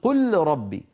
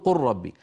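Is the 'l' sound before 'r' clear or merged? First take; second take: clear; merged. First: The l sound is pronounced clearly before r. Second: The l sound merges into the following r. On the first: The speaker calls it wrong. "ما أحد يظهر اللام عند الراء" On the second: The speaker calls it right. "كل العرب تقول"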